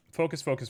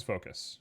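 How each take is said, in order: First: Said in the usual way. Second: Unvoiced, hushed whisper. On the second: Real, not acted. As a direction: whisper it to yourself.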